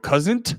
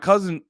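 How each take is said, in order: First: The T sound is pronounced very strongly. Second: The T sound is pronounced only lightly. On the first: "I was over enunciating the T after you said that" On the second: "I'm not even hitting it that hard, but I had the T"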